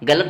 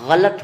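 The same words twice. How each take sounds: First: It begins with a plain hard g sound. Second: It begins with a throaty, fricative gh sound. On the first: The speaker calls it wrong. "गलत नहीं" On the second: The speaker calls it right. "ग के नीचे नुक्ता लगाए, मतलब उसको जोर देकर पढ़ना है"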